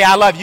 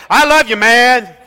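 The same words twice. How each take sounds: First: Said in the usual way. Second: Hammed-up bro tone, slow; macho buddy voice. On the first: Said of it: "You gotta say, "I love you, man". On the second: Shown as a demonstration. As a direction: play the awkward guy adding man. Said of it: "You gotta say".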